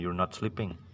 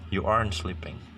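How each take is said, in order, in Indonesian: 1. You dan are menyatu menjadi satu suku kata. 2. Are dan not menyatu menjadi satu suku kata. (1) "you subjeknya itu digabung dengan to be-nya" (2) "to be-nya bisa digabung dengan not-nya"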